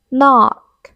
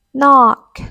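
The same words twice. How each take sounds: The two takes are said the same way.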